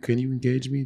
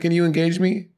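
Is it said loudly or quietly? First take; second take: quietly; loudly. First: It is said quietly and sleepily. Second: It is said loudly.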